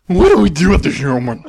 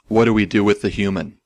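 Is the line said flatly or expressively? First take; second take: expressively; flatly. First: It is said expressively, like an alien. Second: It is said flatly, without emotion.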